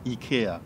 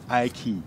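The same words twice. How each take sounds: First: The name is said with a Swedish pronunciation. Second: The name is said with an English pronunciation. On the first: "That's a Swedish pronunciation" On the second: "in English we say IKEA"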